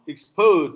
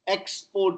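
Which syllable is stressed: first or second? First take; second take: second; first. First: The stress is on the second syllable. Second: The stress is on the first syllable. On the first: It is used as a verb. "is verb" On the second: It is used as a noun. "is noun"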